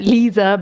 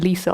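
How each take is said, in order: First: The middle consonant is a buzzing z sound. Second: The middle consonant is a hissing s sound. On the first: This is the name as originally intended. "Lisa with a Z" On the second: This is the name after the misspelling. "it got changed to Lisa"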